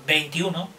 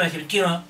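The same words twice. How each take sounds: First: Veintiuno with every syllable spelled out; the right, careful veintiuno for the child; clear pronunciation. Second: Veintiuno swallowed, syllables slurred together; mumbled number. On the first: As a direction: say veintiuno with the lips, each sound clean. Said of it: "No, no, no, veintiuno". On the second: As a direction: say veintiuno lazily, eating the sounds. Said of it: "en vez de decir veintiuno". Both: Shown as a demonstration.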